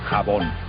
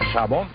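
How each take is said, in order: First: The word begins with a throaty j sound. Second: The word begins with a soft sh-like sound. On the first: This is the later pronunciation. "pasó a pronunciarse jabón" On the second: This is the older pronunciation. "El sonido de la J o G todavía no existía en el siglo dieciséis"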